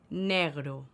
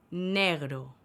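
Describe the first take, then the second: No difference in how they are said.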